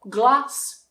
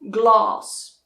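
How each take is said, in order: First: The vowel is short, as in trap. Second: The vowel is long, as in father. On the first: The speaker is from the north of England. "in the north, you will hear that very short ah" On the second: The speaker is from the south of England. "in the south, you will hear that very long ah sound"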